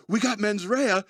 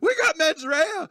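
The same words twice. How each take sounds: First: Higher-pitched retold disbelief; mild mock alarm. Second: Very high, drawn-out mock wail; hammed-up panicked squeal; flipping out. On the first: Wilder's character repeats the words he just lip-read, mildly alarmed. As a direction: imitate someone taking in alarming news. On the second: Wilder's character flips out over what he lip-read, mock hysterical. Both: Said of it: "He starts flipping out".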